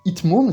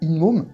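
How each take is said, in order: First: A t sound comes before the m. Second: An n sound comes before the m. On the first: The speaker calls it wrong. "c'est chiant à dire" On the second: The speaker calls it right. "ça glisse tout seul"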